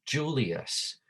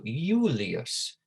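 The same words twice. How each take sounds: First: Said in the usual way. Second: "Julius" drawn out as YOO-lee-us; Latin Y pronunciation. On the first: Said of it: "saying the name". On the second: Shown as a demonstration. Teacher shows there was no J in Latin, "Julius" as YOO-lee-us. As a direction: open "Julius" on a long Y glide instead of J. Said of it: "it made more like a Y".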